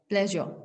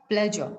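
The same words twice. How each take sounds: The two takes are said the same way.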